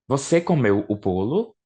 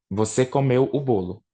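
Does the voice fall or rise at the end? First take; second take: rise; fall. First: The voice rises at the end. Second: The voice falls at the end. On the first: It asks a question. "é a mesma frase, só que com entonação diferente" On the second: It states a fact. "Frase afirmativa"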